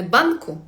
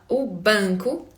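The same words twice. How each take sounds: First: "банку" with a plain open a and hard n; wrong-example "банку", fully oral vowel; non-nasal N. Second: "у банку" with a nasalised vowel before k; slightly nasal N. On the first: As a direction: say "банку" the Ukrainian way, no nasal sound. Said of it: "Не банку". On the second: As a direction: let "у банку" ring lightly in the nose. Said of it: "такий носовий Н трішки". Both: Shown as a demonstration.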